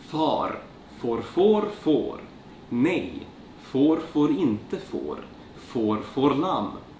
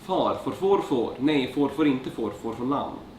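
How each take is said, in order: First: It is said slowly and carefully. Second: It is said at a normal speaking pace.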